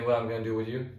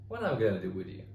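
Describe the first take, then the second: First: It is said in a flat, plain tone. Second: It is said in a warm, playful, teasing tone. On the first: It sounds like an insult that drives them away. The speaker calls it wrong. "if you just said" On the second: It is a friendly tease that keeps the relationship. The speaker calls it right. "Tonality really has to carry this"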